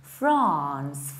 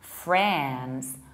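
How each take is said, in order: First: It is said in a British accent. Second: It is said in an American accent. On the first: "if you'd like to have a British accent" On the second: "with the American accent"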